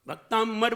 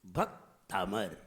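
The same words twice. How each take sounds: First: भक्तांबर with a held m, "bak-taamm-ar"; mispronounced. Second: भक्तामर low and slow, a gap after "bhak", open "taa-mar"; unforced correct pronunciation. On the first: Preacher shows what people say, wrong held m in भक्तांबर. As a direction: press on the wrongly nasal middle of भक्तांबर. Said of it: "नहीं". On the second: Preacher shows the right way, slow unforced भक्तामर. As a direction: split भक्तामर gently as bhak... taamar, no m before "ma". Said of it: "जोर नहीं लगाइए". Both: Shown as a demonstration.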